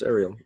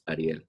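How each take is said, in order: First: The name is said with English sounds. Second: The name is said with Spanish sounds. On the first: "since everybody knows Little Mermaid and she was Ariel" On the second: "The Spanish pronunciation pronunciation is Ariel"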